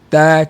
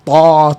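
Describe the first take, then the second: First: The t sound is light and thin. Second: The t sound is heavy and thick. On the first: The speaker calls it right. "sentiasa lemah, sentiasa nipis" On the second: The speaker calls it wrong. "kita tak dengar sebut ta... Tak ada sebut itu"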